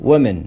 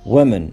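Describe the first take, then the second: The two takes are said the same way.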